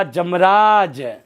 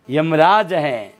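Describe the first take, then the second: First: जमराज with a j sound, not y; wrong j sound. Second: यमराज with a clear y sound at the start; correct y sound. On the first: Teacher demonstrating the wrong pronunciation to students. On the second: Teacher demonstrating the correct pronunciation to students. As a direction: say यमराज slowly with ya, the right way. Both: Shown as a demonstration. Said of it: "जमराज नहीं है".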